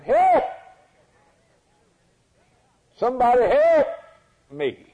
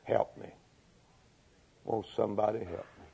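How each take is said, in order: First: Loud, high cry for help; raspy, husky cry. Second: Soft, low, feeble begging; plea to the wind. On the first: Preacher voicing a leper calling through the jungle, loud husky cry. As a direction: cry out desperately, far above your usual pitch. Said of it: "A raspy, husky voice, but loud voice, crying". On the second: Dying leper saying it to the wind, weak hushed plea. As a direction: plead faintly, as if nobody can hear. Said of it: "he was saying to the wind". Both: Acted.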